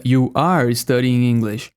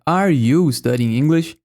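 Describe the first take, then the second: First: You are studying English, said slowly with a falling statement tune. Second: Are you studying English, slow with stress on are and a rising end; question tune. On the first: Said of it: "Se eu quisesse afirmar". (frase afirmativa lenta) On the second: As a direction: ask it slowly, lifting the end. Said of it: "se eu quisesse perguntar". (pergunta com entonação subindo) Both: Shown as a demonstration.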